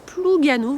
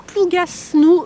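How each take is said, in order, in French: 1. Le S du milieu est muet. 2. Le S du milieu se prononce. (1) "ne prononcez pas le S, vous prononcez Plougasnou" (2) "s'écrit Plougasnou, mais ne faites pas ça"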